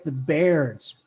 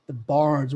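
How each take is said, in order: First: "Baird's" with the vowel of "air"; "Baird's" pronunciation. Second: "Bards" with an open "ah"; "Bards" pronunciation. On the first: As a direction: say "Baird's" to rhyme with "cairds". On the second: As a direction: say "Bards" to rhyme with "cards". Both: Shown as a demonstration. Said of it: "whatever you wanna say it".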